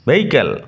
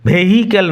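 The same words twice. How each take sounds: First: The h sound in the middle is silent. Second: The h sound in the middle is pronounced. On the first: The speaker calls it right. "H silent থাকবে" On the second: The speaker calls it wrong. "ভেহিক্যাল নয়"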